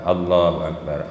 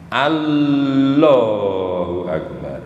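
First: The phrase is said quickly. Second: The phrase is said slowly and carefully. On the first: "nanti terus dicepetkan" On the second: "awalnya begitu kalau latihan"

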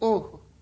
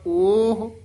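First: The vowel is a short u sound. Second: The vowel is a long o sound. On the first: "ਊੜਾ ਬੰਦ ਮੂੰਹ ਵਾਲਾ ਹਾਹਾ ਔਂਕੜ" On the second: "ਇੱਕ ਹੈਗਾ ਊੜਾ ਖੁੱਲੇ ਮੂੰਹ ਵਾਲਾ ਹਾਹਾ"

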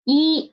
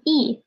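First: It is said with a high level tone. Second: It is said with a falling tone. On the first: "It will change from the first tone into the fourth tone" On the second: "It will change from the first tone into the fourth tone"

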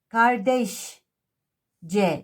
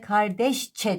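First: The suffix begins with a voiced 'c' (j) sound. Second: The suffix begins with a voiceless 'ç' (ch) sound. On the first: The speaker calls it wrong. "kardeş C demeyiz" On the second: The speaker calls it right. "Ç'ye dönüştürürüz ve kardeşçe deriz"

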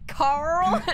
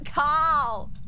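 First: It is said in a Southern American accent. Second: It is said in an Australian accent. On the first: "Now I just sound like a redneck" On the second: "That sounds Australian, like Carl"

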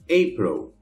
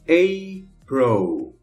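First: The word is said at normal speed. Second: The word is said slowly. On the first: "a outra normal" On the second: "uma vez devagarinho"

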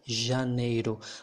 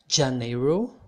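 First: It begins with a 'zh' sound, as in garage. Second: It begins with a 'j' sound, as in jam. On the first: The speaker calls it right. "It's more like janeiro, like the second G in garage" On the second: The speaker calls it wrong. "It's not like janeiro"

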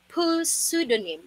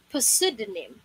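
First: The word starts with a pronounced P sound. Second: The word starts with a pronounced P sound.

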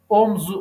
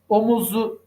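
First: The second-syllable vowel is dropped from the word. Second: The second-syllable vowel is kept in the word. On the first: The speaker calls it right. "omzu oldu" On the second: The speaker calls it wrong. "omuzu değil"

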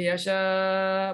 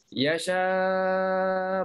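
First: The long vowel is held for four counts. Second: The long vowel is held for six counts. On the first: "boleh empat" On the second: "boleh enam"

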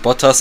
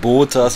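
First: The name is said at normal length. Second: The name is said very drawn out. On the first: "nicht Bottas" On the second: "so ultra langgezogen aussprechen"

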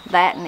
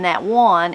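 First: The second word is cut down to an n. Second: Both words are said fully and separately. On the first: "you're just left with the N" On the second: "instead of saying that one"

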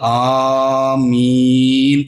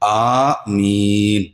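First: The vowel is stretched out long. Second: The vowel is kept short and plain. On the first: The speaker calls it wrong. "ആമീൻ എന്ന് നീട്ടേണ്ടതില്ല" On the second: The speaker calls it right. "ആമീൻ അത്ര പറയേണ്ടതുള്ളൂ"

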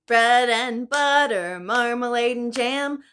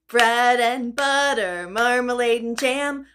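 Both takes have the same delivery.

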